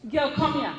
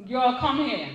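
First: Put-on girl come here in light Trini creole, "come here" clipped to "come ya". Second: Said in the usual way. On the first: Shown as a demonstration. Author showing readers how Trini speakers call someone, lightly voiced. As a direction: call her over the island way. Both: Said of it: "If I want to say".

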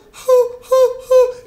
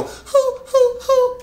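First: High, loud falsetto hoo; falsetto hoots. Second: High falsetto hoo; falsetto hoots. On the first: Coach showing anyone can hoot in falsetto. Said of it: "Everybody can go". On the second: Coach repeating the easy falsetto hoot. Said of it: "If I go". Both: Shown as a demonstration.

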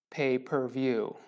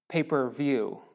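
The two takes are said the same way.

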